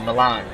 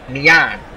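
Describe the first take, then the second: First: The double L is said as an L sound. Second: The double L is said as a Y sound. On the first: The speaker calls it wrong. "it's not L. It's not, you know, Milan" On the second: The speaker calls it right.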